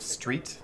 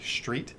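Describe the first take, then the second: First: The opening cluster has the usual standard sound. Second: The opening cluster has an altered, shifted sound. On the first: The speaker calls it right. "instead of street" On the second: The speaker calls it wrong. "they'll say street"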